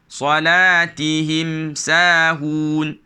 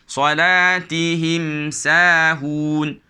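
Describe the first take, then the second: No difference in how they are said.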